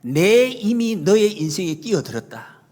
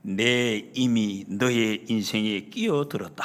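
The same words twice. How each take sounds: First: Slow, firm proclamation in the preacher's own voice; emphatic retold declaration. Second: Low, slow, solemn royal declaration; imitated queen. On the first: Preacher re-quotes the queen to the congregation, slow and emphatic. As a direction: proclaim it slowly, pressing on the first word. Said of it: "똑같이 비슷하게 딱 내밀면서". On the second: Queen steps in for the maid before onlookers, low slow regal voice. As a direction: voice a queen's pronouncement, deep and drawn out. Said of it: "내밀면서 중전마마가".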